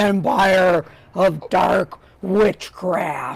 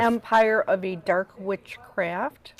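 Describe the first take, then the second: First: It is said in a deep growling voice. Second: It is said in a plain speaking voice.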